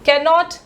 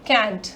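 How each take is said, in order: First: It is said as the full, uncontracted form. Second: It is said as one short contracted syllable.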